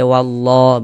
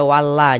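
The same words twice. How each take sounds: First: "wallah" with a heavy, rounded "llo"; thick Allah. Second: "wallah" with a light, thin "la"; wrong thin Allah. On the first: ("wallah" dibaca tebal) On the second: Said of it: "jangan dibaca wallah". ("wallah" dibaca tipis, salah) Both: Shown as a demonstration.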